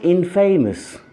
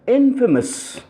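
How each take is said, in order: First: The ending sounds like the word 'famous'. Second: The ending does not sound like 'famous'. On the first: The speaker calls it wrong. "not infamous" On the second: The speaker calls it right. "the opposite of this word is infamous"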